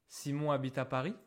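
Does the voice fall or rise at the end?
rises. The voice rises at the end. It is a question.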